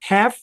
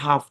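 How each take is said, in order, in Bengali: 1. এটি আমেরিকান উচ্চারণে বলা হয়েছে। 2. এটি ব্রিটিশ উচ্চারণে বলা হয়েছে। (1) "একটা হচ্ছে হ্যাভ, যেটা আমেরিকান" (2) "একটা হচ্ছে হাফ, যেটা কিনা ব্রিটিশ"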